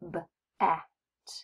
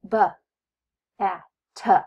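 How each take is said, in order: First: The consonants are clipped with no extra vowel. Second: The consonants end with an extra 'uh' sound. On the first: The speaker calls it right. "eliminate the schwa sound by just saying" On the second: The speaker calls it wrong. "add the schwa sound to their consonants"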